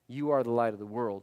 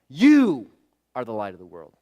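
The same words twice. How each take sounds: First: The word 'you' carries no special stress. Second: The word 'you' is strongly stressed. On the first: The speaker calls it wrong. "it really wasn't him saying" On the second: The speaker calls it right. "It was more like"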